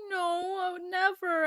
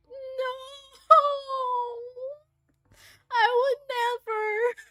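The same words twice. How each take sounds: First: Mildly imitated soft protest; a lighter, quicker retold denial. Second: High, drawn-out cooing denial; tender protest. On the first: His reply to the same question. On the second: Retold or imitated. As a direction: plead it sweetly, voice pitched up. Acted tender protest to sick Ren.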